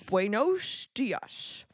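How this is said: It is said with a Midwestern American accent. "They go, ... you mix the Midwestern accent with people trying to speak Spanish"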